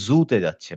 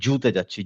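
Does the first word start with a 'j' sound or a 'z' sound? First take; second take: z; j. First: The first word starts with a buzzing z sound. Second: The first word starts with a j sound. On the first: The speaker calls it right. "যেমন ইংলিশে আমরা বলি জু" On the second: The speaker calls it wrong. "জুতে বললে বর্গীয় জর মতো উচ্চারণ হয়ে যাবে"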